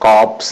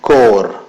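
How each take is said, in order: First: The p and s sounds are pronounced. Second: The p and s sounds are silent. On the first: The speaker calls it wrong. "എന്നല്ല പറയുക" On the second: The speaker calls it right. "പി silent ആണ്"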